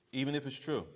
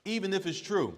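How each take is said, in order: First: Said in the usual way. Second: Even pitched high and loud; insistent, high and loud on "Even"; emphatic. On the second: Real, not acted. Stressing a point to students.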